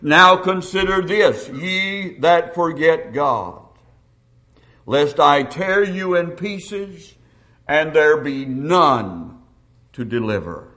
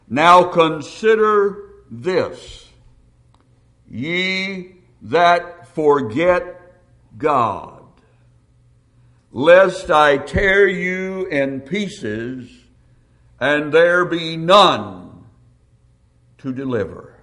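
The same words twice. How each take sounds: First: It is read at a normal pace. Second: It is read more slowly.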